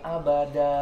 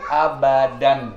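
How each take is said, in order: First: The word ends on an open vowel. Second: The word ends with a clear n sound. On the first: "kalau dimatikan abada" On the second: "nggak dimatikan"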